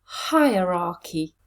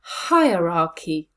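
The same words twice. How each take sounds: First: Hierarchy joined up slowly and evenly; slow careful blend. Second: Hierarchy with HI hit hard, slowly; stress on the first syllable. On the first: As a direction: put the four syllables back together, slowly. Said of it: "Let's put them together". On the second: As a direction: lean on the opening HI of Hierarchy. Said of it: "Where is the stress?". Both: Shown as a demonstration.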